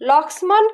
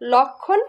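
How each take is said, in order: First: The word is said with an m sound. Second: The word is said with no m sound. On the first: The speaker calls it wrong. "লক্ষ্মণ কিন্তু আমরা বলি না" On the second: The speaker calls it right. "লক্ষণ বলি"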